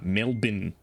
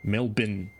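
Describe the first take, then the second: No difference in how they are said.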